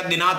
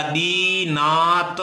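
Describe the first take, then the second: First: Said in the usual way. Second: दीनात stretched out as dee, naa, ta; दीनात sounded out piece by piece; slow syllable breakdown. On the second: Shown as a demonstration. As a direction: draw out each syllable of दीनात very slowly. Teacher spells out the extracted word.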